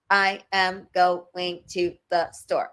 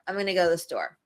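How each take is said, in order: First: Each word is said separately and choppily. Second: The words are linked and reduced smoothly. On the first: The speaker calls it wrong. "that's more robotic" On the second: The speaker calls it right. "we actually sound more fluid"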